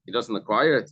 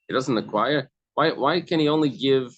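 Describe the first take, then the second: First: Said in the usual way. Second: "He doesn't acquire" asked with a rising, disbelieving tune; astonished question. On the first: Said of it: "You have to say that". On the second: Shown as a demonstration. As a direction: ask it as if it can't be true. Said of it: "in a astonishment".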